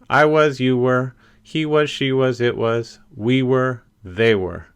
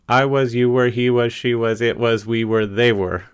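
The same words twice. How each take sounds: First: It is said at a slow, careful pace. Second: It is said quickly, with no pauses.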